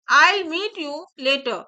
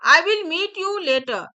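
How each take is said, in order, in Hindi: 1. 'I will' एक syllable में छोटा हो जाता है: 'I'll'। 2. 'I will' को दो पूरे शब्दों की तरह बोला जाता है।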